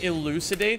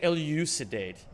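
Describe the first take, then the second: First: The u is a plain oo sound. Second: The u is a yoo sound, with a y glide. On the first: "Instead of saying elucidate" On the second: "bring back the liquid U"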